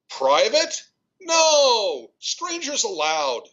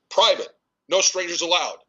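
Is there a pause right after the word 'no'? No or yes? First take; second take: yes; no. First: A clear break follows an exclaimed no. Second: No pause after no; no strangers forms one phrase.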